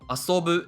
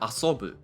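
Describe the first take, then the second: First: The pitch starts low, rises and stays high. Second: The pitch rises and then drops again. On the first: The speaker calls it right. "the first kana must start low and everything goes high and stays high" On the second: The speaker calls it wrong. "instead of"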